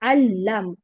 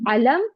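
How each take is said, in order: First: The L sound is doubled and held long. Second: The L sound is short and single. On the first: The speaker calls it right. "लाम मुशद्दद है तो उसको two times पढ़ेंगे" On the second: The speaker calls it wrong. "it is not alam"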